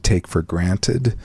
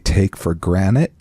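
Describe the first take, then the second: First: The last word ends with a clear 'ted'. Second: The last word sounds like 'granite'. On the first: "as opposed to" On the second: "like the stone"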